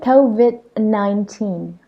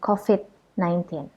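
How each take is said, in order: First: COVID is pronounced the English way. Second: COVID is pronounced the Indonesian way. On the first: The speaker calls it right. "it's actually COVID nineteen" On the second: The speaker calls it wrong. "bukan COVID nineteen"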